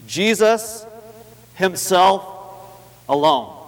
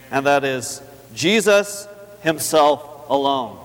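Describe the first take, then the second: First: Jesus, himself, alone, each alone with pauses, climbing higher to alone; emphatic, word by word. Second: Slow, drawn-out Jesus himself alone; slow emphasis. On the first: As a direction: space the words and lift alone high. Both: Shown as a demonstration. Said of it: "That, that's very emphatic".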